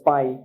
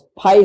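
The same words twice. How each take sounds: First: The p is said without a puff of air. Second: The p is said with a puff of air. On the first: The speaker calls it right. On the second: The speaker calls it wrong.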